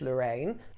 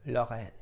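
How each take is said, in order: First: It is said with an English pronunciation. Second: It is said with a French pronunciation. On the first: It is the common pronunciation in Britain. The speaker calls it wrong. "There is a vulgarity in pronouncing it quiche Lorraine, and it is pronounced in the kingdom in that manner" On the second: It is the name of the French region. The speaker calls it right. "a region in the east of France called Lorraine. Forgive my pronunciation"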